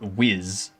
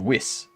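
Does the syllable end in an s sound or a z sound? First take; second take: z sound; s sound. First: The syllable ends in a buzzing z sound. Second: The syllable ends in a hissing s sound. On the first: The speaker calls it wrong. "it's not whiz pronounced with a Z" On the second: The speaker calls it right. "It's an S, alright? It's a whis"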